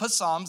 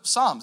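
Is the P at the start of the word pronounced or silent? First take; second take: pronounced; silent. First: The word starts with a p sound. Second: The word starts with an s sound. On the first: The speaker calls it wrong. "It's not psalms" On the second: The speaker calls it right. "It's a silent P"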